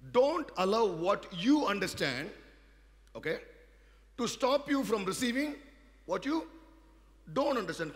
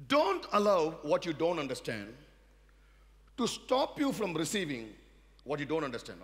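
First: Much louder, higher and slow, word by word; stronger repeat. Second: Loud, pressing every word; emphatic preaching. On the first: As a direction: hammer it home a second time. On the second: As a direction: drive the warning home. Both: Shown as a demonstration. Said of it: "let me repeat this way".

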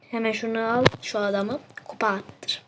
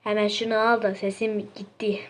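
First: Whispered line, voice gone; lost voice. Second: Said in the usual way. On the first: Real, not acted. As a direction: rasp it out as if the voice is gone. (sesi gitmiş gibi fısıltıyla)

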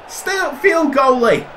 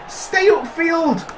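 First: High, urgent shout at the keeper; urgent shout to the goalie to stay upfield; shouted order. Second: Slow, high call to the keeper; slow high plea to stay upfield; drawn-out call. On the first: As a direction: yell it across the pitch. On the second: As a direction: stretch it out, pleading. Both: Real, not acted.

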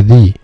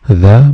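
First: "the" said as "thee" with a long ee before a vowel. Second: "the" said short as "thuh" before a consonant. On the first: Teacher showing students "the" as "thee" before a vowel. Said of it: "منطقها the لو جه بعديها vowel". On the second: Teacher showing students "the" as "thuh". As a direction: say "the" as "thuh", with a short weak vowel. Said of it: "هي بتتنطق the ولا the؟". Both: Shown as a demonstration.

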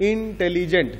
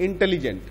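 First: Broken into syllables. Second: Said in the usual way. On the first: Shown as a demonstration. Teacher showing class seven how a long word divides, intelligent broken into syllables. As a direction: sound out intelligent piece by piece, in-tele-gent. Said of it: "তিনটে ভাগ হলো". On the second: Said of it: "ভেঙে পড়ি আমরা".

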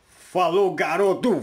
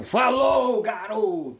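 First: Cheerful loud send-off; loud goodbye. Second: High, loud shouted send-off; shouted goodbye. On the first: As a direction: call out the goodbye warmly. Loud farewell to a friend on camera. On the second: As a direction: yell the farewell with a big pitch leap. Repeats farewell, even bigger. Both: Real, not acted.

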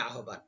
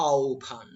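First: আহ্বান said as spelt, "a-ho-ban"; common mispronunciation. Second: আহ্বান said "ao-bhan", long first glide; correct pronunciation. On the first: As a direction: quickly say আহ্বান as everyday "ahoban". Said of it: "আমরা তো জানি আহ্বান". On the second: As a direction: sound out আহ্বান as drawn-out "aao-bhaan". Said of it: "উচ্চারণ হচ্ছে". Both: Shown as a demonstration.

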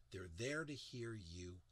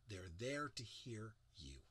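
First: Said in the usual way. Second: Whispered, slow; soft whisper to draw them in. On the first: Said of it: "repeated in voice after whisper". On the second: Shown as a demonstration. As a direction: breathe it out in a whisper. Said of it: "whispered repeat of the phrase".

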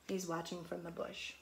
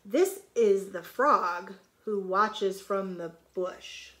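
First: Said in the usual way. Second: Slow, louder storybook line; picture-book read-aloud; reading to children. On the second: Shown as a demonstration. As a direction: read each word out clearly for the kids. Reads line, then explains it.

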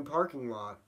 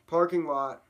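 First: Said in the usual way. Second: Loud, higher shout of praise; big punchy exclamation; exclaimed echo. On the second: Acted. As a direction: belt it out like a cheering crowd. Crowd echo in town song.

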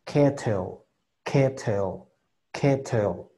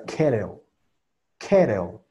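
First: "kettle" as "keh-tel" with a full T; "kettle" with an untapped, strong T; with hard T. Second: "kettle" as "keh-reo", T turned to a tap; "kettle" with tapped middle and dark L; common tapped T. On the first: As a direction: articulate the middle T of "kettle" clearly. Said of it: "O si es con T". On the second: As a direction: soften the T in "kettle" to a quick R. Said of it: "gente que por lo regular utiliza". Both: Shown as a demonstration.

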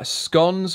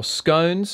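First: "scones" with a long o, rhyming with stones, drawn out; "scones" rhymed with bones; scones said one way. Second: "scones" with a short o, rhyming with gone; "scones" clipped to rhyme with cons; scones said the other way. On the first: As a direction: say "scones" as skohnz. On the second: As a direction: say "scones" as skonz. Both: Shown as a demonstration. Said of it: "however you wanna fucking pronounce it".

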